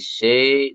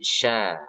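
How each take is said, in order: First: The vowel glides from a toward i. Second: The vowel stays a clear, open a. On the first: The speaker calls it wrong. "Jangan syai" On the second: The speaker calls it right. "tapi sya"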